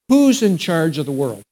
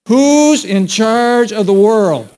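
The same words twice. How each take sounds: First: It is said in a calm, plain way. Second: It is said with passion and energy.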